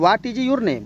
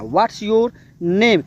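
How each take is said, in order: First: "What is" is said as two full words. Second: "What is" is contracted to "what's". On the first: The speaker calls it wrong. "आपको ये नहीं कहना है" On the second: The speaker calls it right. "ऐसे बोलना"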